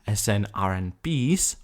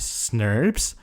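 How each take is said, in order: First: The term is spelled out letter by letter. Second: The term is said as one word.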